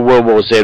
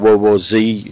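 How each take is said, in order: First: The final letter is pronounced 'zed'. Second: The final letter is pronounced 'zee'. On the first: This is the speaker's own usual pronunciation. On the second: This is how the listeners would pronounce it.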